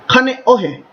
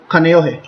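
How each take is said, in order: First: The name is pronounced with Hawaiian vowels. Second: The name is pronounced with anglicized vowels. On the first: The speaker calls it right. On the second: The speaker calls it wrong.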